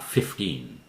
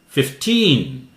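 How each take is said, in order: First: The stress is on the first syllable. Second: The stress is on the second syllable. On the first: The speaker calls it wrong. "fifteen would be confused with fifty" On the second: The speaker calls it right. "teen part louder"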